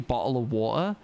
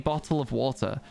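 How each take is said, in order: First: The T sounds are dropped, glottal stops instead. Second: The T sounds are clearly pronounced throughout. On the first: "I don't say bottle of water" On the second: "I pronounce T's in words"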